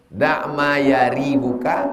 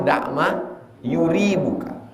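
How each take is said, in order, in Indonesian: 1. Vokal pertama kata kerja itu adalah 'a' terbuka. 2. Vokal pertama kata kerja itu adalah 'u' bulat. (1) "hanya dibaca fatah" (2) "wa dhammiha"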